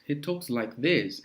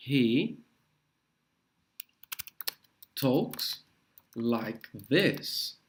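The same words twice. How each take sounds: First: Said in the usual way. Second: Halting model phrase, long gaps; word by word. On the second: Shown as a demonstration. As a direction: spell out the phrase one word at a time. (palavra por palavra, com pausas longas)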